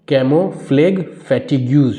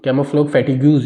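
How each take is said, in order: First: "camouflage fatigues" very slowly, piece by piece; "camouflage fatigues" stretched and carefully separated; slow sounding-out. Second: Said in the usual way. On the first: Shown as a demonstration. Sounding out a hard term for learners.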